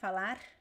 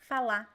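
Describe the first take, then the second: First: The final R is a weak, light sound. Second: The final R is dropped and not heard. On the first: This is how the south and southeast say it. "the weak R" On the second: This is how some places in Brazil say it. "people just drop it"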